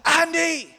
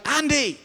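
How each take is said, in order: First: Full, high-pitched holler; re-enacted louder second call; really loud shout. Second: High, loud call across a parking lot; re-enacted shout after someone. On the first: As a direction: yell the name so it carries across a parking lot. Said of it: "So I shouted really loud". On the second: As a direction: call his name to catch him. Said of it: "and I shouted".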